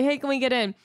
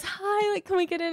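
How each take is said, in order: First: Said in the usual way. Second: High, flirty, soft sweet greeting; flirty sister. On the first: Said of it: "just, like, smile and say". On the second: Retold or imitated. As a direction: put on a cute, much higher voice to charm the guy. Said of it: "She goes".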